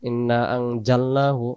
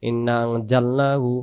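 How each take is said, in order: First: The middle consonant is a hard j sound. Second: The same.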